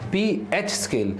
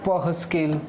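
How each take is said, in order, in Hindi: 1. pH को दो अक्षरों में बोला जाता है, pee-aych। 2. pH को एक अक्षर में बोला जाता है, pah। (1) "इसको प्रोनाउंस पीएच से ही करोगे बालक" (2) "सर ये क्या लगा रखा है"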